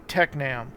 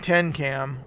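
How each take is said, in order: First: The n sound comes after the k sound. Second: The n sound comes before the k sound. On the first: The speaker calls it right. "it was really Tecnam" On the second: The speaker calls it wrong. "I was saying Tencam"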